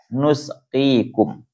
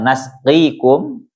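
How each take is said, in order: First: The first syllable has a 'u' vowel. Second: The first syllable has an 'a' vowel. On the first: "wa dhammiha" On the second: "bi fathin nun"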